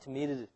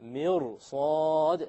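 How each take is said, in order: First: The r sound is light and thin. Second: The r sound is heavy and full. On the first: The speaker calls it wrong. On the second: The speaker calls it right. "you have to say"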